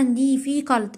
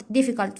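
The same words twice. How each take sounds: First: "دي في كالت" slowly, broken into syllables. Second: Said in the usual way. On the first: Shown as a demonstration. Teacher showing correct pronunciation to students, "دي في كالت" syllable by syllable. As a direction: sound out "دي في كالت" piece by piece. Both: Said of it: "أكون بعرف أنطقها صح".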